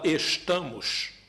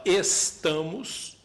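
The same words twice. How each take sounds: First: It is said in a Rio de Janeiro accent. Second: It is said in a Minas Gerais accent. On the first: "o carioca fala" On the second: "O mineiro fala"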